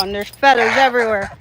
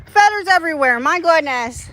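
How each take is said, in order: First: Said in the usual way. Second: "Feathers" said much higher, exasperated. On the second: Real, not acted. Owner dismayed at feathers in the horse pool, mock exasperation.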